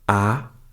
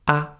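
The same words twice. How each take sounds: First: The pitch rises upward. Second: The syllable is light and soft. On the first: "requires you to raise your voice a little bit" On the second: "the last one is very soft"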